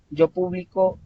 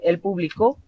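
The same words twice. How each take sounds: First: "publico" stressed on BLI; pu-BLI-co, present tense; stress on middle syllable. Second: "publicó" stressed on the final CÓ; pu-bli-CÓ, past tense; stress on last syllable. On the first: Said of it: "perdón, así es". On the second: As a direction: land on the end of "publicó". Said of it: "sílaba tónica al final". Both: Shown as a demonstration.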